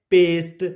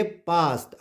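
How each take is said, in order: First: पेस्ट with a long 'ay' vowel; wrong vowel. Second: पास्ट with a long open 'aa'; correct vowel. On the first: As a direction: say पेस्ट with an 'ay', as the mistaken reading. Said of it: "नहीं पढ़ेंगे". (पेस्ट में 'ए' की आवाज़) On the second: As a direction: say पास्ट with 'aa' in place of 'ay'. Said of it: "इसको हम पढ़ेंगे". (पास्ट में 'आ' की आवाज़) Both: Shown as a demonstration.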